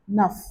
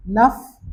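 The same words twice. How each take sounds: First: नफ with the final f sounded; French neuf. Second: नफ repeated louder, final f sounded; louder नफ with a clear final f; French neuf, louder. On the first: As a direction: let the f of नफ be heard. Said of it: "अगर ये आ गया word जैसे". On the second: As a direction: stress नफ and sound its f. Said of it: "एफ बोला जाएगा". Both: Shown as a demonstration.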